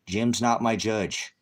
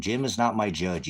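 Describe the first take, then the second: First: Slow, every word pressed hard; slow emphatic repeat. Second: Said in the usual way. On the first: Real, not acted. Streamer repeating to a commenter that Jim isn't his judge, slowed and stressed. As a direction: drag it out to make the point land.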